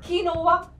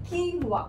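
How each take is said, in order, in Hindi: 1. यह तीन सिलेबल में kinova जैसा बोला जाता है। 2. यह दो सिलेबल में keenwa जैसा बोला जाता है।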